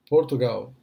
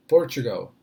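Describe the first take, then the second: First: Said in the usual way. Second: "Portugal" as POR-chuh-gul; English pronunciation. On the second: Shown as a demonstration. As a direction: say "Portugal" in English, stress on the first syllable. ("Portugal" em inglês, tônica no início) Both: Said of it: "o que seria inglês".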